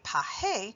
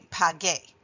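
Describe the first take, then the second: First: The middle consonant is an H sound. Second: The middle consonant is a hard G sound. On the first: The speaker calls it wrong. "we have to pronounce it pahe, which is not the same thing" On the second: The speaker calls it right. "so that we say page"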